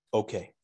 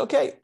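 First: Soft, defeated okay; quiet resigned okay; tearful okay. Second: Okay tossed off high; higher, upbeat okay; brisk okay. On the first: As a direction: give in quietly, near tears. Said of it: "one tear came down my cheek". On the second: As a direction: snap back to business. Retold reply to rabbis. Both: Retold or imitated.

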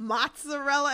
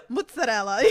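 First: "Mozzarella" higher, with open "mots"; waitress's pronunciation. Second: "Mozzarella" as "moots", with tapped consonants; Italian-American pronunciation. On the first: Showing cohost how waitress said it, "Mozzarella" as mots-a-rella. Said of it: "How did she say it?". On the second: Own Italian version against the waitress's, "Mozzarella" as moots-a-della. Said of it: "it's like that Italian". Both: Retold or imitated.

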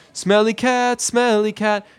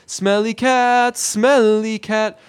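First: High sung phrase at an even pace; singing Stephanie. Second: High, slow, drawn-out sung correction; singing Phoebe. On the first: Student learning Smelly Cat from Phoebe, sung high. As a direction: sing it simply, pitched up. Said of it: "teaching Stephanie how to play Smelly Cat". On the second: Teacher correcting Stephanie's singing, slow and drawn-out. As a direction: sing it stretched out, long on each word. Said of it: "No, no, no, I'm sorry, it's". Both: Retold or imitated.

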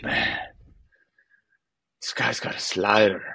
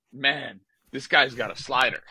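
First: Imitating a teammate's Italian-accented English. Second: Put-on higher retelling of the teammate's line, accent mostly dropped; teammate quoted incredulously. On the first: Teammate to the narrator at the water cooler, in an Italian accent. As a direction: put on a light Italian accent. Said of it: "in, like, this Italian accent". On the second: Irritated player relaying his teammate's remark, in higher-pitched disbelief. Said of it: "I've got a guy who's, like, telling me".

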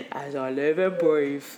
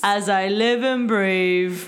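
First: Lower, slow mock Cockney line; bad Cockney impression. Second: Imitating Lin-Manuel's bad Cockney, slow; slow mock Cockney drawl, hammed up; bad Cockney impression. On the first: Cohost echoes the trailer line in low mock Cockney. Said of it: "he sounds terrible". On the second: Friends mocking a movie trailer line, hammed-up slow Cockney. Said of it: "he's like".

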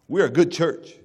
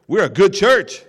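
First: Chuckling through a smug claim; laughing boast. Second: Louder, proud claim of a good church; boastful churchgoer. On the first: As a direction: laugh it off, half mocking. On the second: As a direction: announce it like a smug elder. Preacher voices a smug churchgoer. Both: Retold or imitated.

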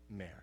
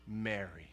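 First: Quieter repeat of the name; hushed repeat of the name; soft echo. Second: Soft, low calling of her name; tender, lowered voice calling her name. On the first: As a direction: let the name land softly. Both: Acted. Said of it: "put a particular tone to it".

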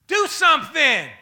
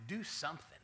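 First: Shouted high and hard; loud and high. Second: Said in the usual way. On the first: Shown as a demonstration. Neighbor yelling the phrase at the next person. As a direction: bark it out as a command. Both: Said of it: "don't tell him like that".

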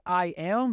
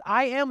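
First: Said in the usual way. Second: "I am" punched higher and louder; stress on I AM. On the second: Shown as a demonstration. Preacher landing "I am" for the congregation, stressed high and loud. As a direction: hit "I am" hard, up and loud. Stressing the divine name phrase.

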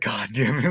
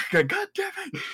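First: Said in the usual way. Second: Squeaky, much higher mock curse, falling off; hammed-up exasperated impression; Tommy fed up. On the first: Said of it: "Just like". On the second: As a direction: parody a worn-out man swearing at everyone. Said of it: "And he's just like".

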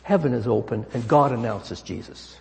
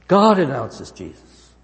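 First: Said in the usual way. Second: God announces Jesus slow and louder, GOD stressed; emphatic repeat. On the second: Acted. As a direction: hammer home "God announces Jesus" slowly. Preacher repeats key phrase.

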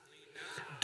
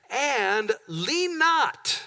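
First: Whispered lean not. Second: And lean not, drawn out very slowly; slow stressed lean not. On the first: Pastor to congregation, whispering lean not. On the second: Pastor to congregation, slowly stretching lean not. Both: Shown as a demonstration. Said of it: "Everybody say".

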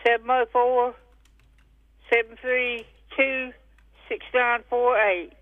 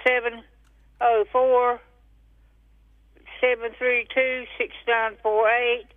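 Both takes have the same delivery.

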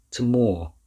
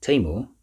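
First: "Tamor" with a firm, louder second syllable, falling; stress on second syllable. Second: "Tamor?" questioned, weight on the first syllable; stress on first syllable. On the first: Professor corrects Rosa on the dog's name, stressing the second syllable of "Tamor". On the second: Rosa checks the dog's name, stressing the first syllable of "Tamor". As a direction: mispronounce "Tamor" by stressing its opening syllable, second one weak. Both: A narrator's reading. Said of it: "Emphasis on the second syllable".

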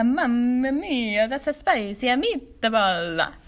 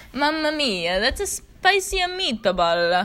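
First: Slow mock Italian accent, her own variation. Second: Hammed-up Italian accent, slow and louder. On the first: Showing her own variation, slow mock Italian accent. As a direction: stretch mia and meatball out, Italian style. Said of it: "different variations, different tones". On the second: Teaching listeners the phrase, mock Italian accent. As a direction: drag out spicy meatball like a stage Italian. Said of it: "my Italian accent". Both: Shown as a demonstration.

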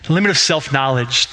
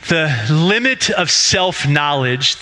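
First: Said in the usual way. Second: Slow, weighted title read, stress on limit; a slow, deliberate title announcement; announcing the title. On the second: Shown as a demonstration. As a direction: lean into "limit" and draw the phrase out slowly. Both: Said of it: "is our working title today".

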